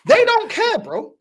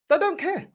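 First: They don't care, punched higher and louder; loud retort. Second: Said in the usual way. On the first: Real, not acted. Repeated line, shouted take.

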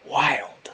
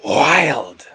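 First: Whispered wild. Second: Tiger voice. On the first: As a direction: breathe the word wild softly. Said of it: "Can you say". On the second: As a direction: growl wild like a tiger. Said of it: "say it like a tiger". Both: Shown as a demonstration.

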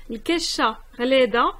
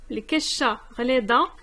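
Both takes have the same delivery.

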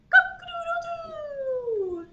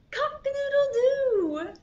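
First: Very high, slow, drawn-out crow; long rooster crow. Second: High, loud playful crow; rooster crow. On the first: Pretend. Storyteller repeating the rooster for toddlers, long high crow. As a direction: crow louder and hold the last note, sliding down. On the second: A narrator's reading. Storyteller voicing the rooster, high crowing call. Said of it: "says the rooster".

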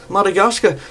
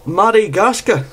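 Both takes have the same delivery.

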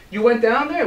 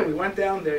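First: Louder, rising check-back "You went down there?"; rabbi's sharp question. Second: Said in the usual way. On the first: Acted. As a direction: press them, do not believe it.

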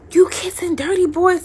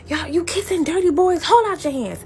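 First: High, loud imitated scolding mother; Caribbean mother. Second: High imitated Caribbean scolding; Caribbean mother accent. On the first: Mother confronting her daughter about kissing, imitated scolding without the accent. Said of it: "now a Caribbean mother". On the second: Mother ordering daughter's hands out, Caribbean-accented scolding. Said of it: "Sorry, I lost my accent".

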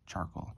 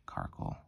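First: "Charcoal" starting with CH; CH pronunciation. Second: "Carkle" starting with a hard K; hard K pronunciation. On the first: Card opener recalling their habitual reading, "Charcoal" with CH. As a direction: say "Charcoal" with CH as in chair, softly. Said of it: "I've been pronouncing this thing Charcoal". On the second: Card opener testing the name aloud, "Carkle" with hard K. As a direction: say "Carkle" with K as in car, softly. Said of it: "Is it Carkle?". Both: Shown as a demonstration.

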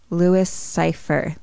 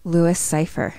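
First: "Louis Cypher" drawn out slowly; slow realisation. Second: Said in the usual way. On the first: Retold or imitated. Mickey works out the devil's name, slow realisation. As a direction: stretch "Louis Cypher" as if sounding it out. Name slowed until Lucifer is heard.

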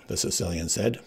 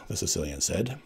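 Both takes have the same delivery.

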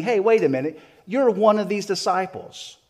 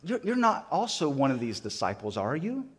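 First: Firm, raised, louder declaration; accusing statement. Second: Tentative tag question, rising on "are you"; doubtful question. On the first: Bystanders confronting Peter as a disciple, accusing statement. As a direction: call them out as a fact, not a question. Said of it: "You're making a statement". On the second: Someone questioning Peter by the fire, doubtful question. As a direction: ask it unsure, expecting a no. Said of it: "this question of". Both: Retold or imitated.

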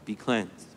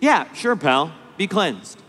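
First: Soft, hushed and gentle; a quiet, loving blessing; tender. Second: Offhand, shrugging brush-off; a careless, bored mock-healer; casual indifference. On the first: Acted. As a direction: say it softly, full of love. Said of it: "what tenderness must have been". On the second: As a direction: toss it away like it's nothing. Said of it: "with casual indifference".

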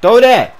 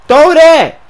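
First: Loud, raised demand; urgent shout. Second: Very high, very loud yell; desperate scream. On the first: Open receiver demanding a pass, urgent shout. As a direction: call sharply for the ball. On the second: Ignored receiver begging for the pass, desperate scream. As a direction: scream for the ball at full force. Demanding the pass, more forcefully. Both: Real, not acted.

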